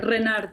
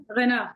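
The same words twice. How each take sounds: First: Renard with a rolled r and a final d, Spanish style; Spanish pronunciation. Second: Renard with a French r and a silent d; French pronunciation. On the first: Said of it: "Like in Spanish accent". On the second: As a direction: say Renard the French way, ending on an open a. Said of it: "So in French". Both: Shown as a demonstration.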